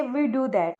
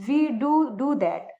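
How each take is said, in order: First: Said in the usual way. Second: Second "do" stressed, said slowly; slow, lean on "do do" to insist; emphatic do. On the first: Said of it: "normally तो हम ऐसे ही बोलेंगे". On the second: Shown as a demonstration. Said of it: "बात पर जोर डालेंगे तो हम बोलेंगे". (दूसरे "do" पर ज़ोर, धीमे बोलें)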